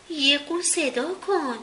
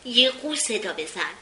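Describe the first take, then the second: First: Slow, firm command, falling at the end; new authority. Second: Brisk plain command, no slowing; ordered. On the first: Little Billy ordering Don to call a swan, with new firm authority. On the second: Little Billy ordering Don to call a swan, brisk command. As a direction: give the order matter-of-factly. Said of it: "دستور داد". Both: A narrator's reading.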